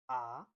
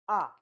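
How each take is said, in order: First: The pitch rises through the syllable. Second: The syllable is said with the fourth tone. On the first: "The second one is ah, ah, ah. You rise up" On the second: "And the fourth one is"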